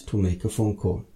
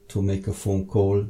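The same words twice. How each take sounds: The two takes are said the same way.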